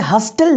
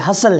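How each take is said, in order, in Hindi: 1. बीच में t की आवाज़ बोली जाती है। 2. बीच में t की आवाज़ साइलेंट होती है। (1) "ये हस्टल नहीं" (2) "इसमें टी जो है वो साइलेंट है"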